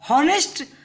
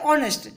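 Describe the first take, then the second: First: The word begins with an h sound. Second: The word begins with a vowel sound. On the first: The speaker calls it wrong. "हम इसको हॉनेस्ट नहीं बोलते" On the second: The speaker calls it right. "हम इसको बोलते हैं ऑनेस्ट"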